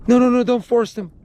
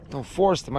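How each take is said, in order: First: Higher mock pleading; mother's pleading. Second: Said in the usual way. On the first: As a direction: imitate her frantic no no no. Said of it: "the mommy flips".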